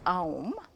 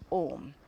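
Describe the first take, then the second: First: The vowel glides from a to u. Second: The vowel is one pure o sound. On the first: The speaker calls it wrong. "technically, it is not right to pronounce it as aum" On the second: The speaker calls it right. "this combined with this is pronounced om"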